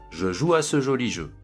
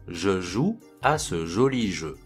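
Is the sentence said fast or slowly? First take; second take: fast; slowly. First: The sentence is spoken quickly. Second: The sentence is spoken slowly. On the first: "ensuite rapidement" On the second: "je vais les dire lentement"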